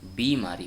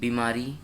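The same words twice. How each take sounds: First: The first vowel is long. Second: The first vowel is short. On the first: The speaker calls it right. "बीमारी होता है" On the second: The speaker calls it wrong. "ये अशुद्ध है"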